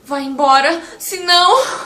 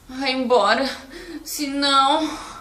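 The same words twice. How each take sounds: First: It is said in a frightened, alarmed voice. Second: It is said in a weary, exhausted voice. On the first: Something dangerous is coming. "você estando assustado, numa uma situação assim de espanto, de medo" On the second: The speaker cannot take any more. "senão cansado"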